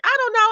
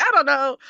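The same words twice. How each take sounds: First: Much higher and louder, a bright squeaky shrug; playful skipping-off answer. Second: Lightly lifted breezy I don't know; a gentler second shrug; mild playful shrug. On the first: Answering the curious manager, squeaky higher playful I don't know. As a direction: toss it off like skipping away. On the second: Answering the manager again, a lighter breezy shrug. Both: Retold or imitated. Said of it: "kinda skipped away energetically".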